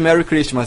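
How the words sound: It is said with an English accent. "vem de Merry Christmas do inglês"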